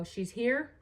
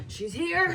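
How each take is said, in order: First: Said in the usual way. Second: High dramatic call. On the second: Acted. Announcing her period arriving.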